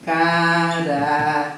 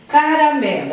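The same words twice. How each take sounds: First: Caramelo drawn out slowly, syllable by syllable; slow it down to show the syllables. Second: Said in the usual way. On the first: Shown as a demonstration.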